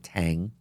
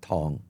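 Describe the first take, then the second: First: It is said with an American pronunciation. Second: It is said with the family's Chinese dialect pronunciation. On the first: "how Americans say it" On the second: "in our dialect, it, she pronounced it Tong"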